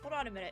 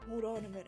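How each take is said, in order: First: It is said in the speaker's normal voice. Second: It is said in a put-on deep man's voice. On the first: "we're just gonna read it in a normal voice" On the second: "I can't do a man's voice"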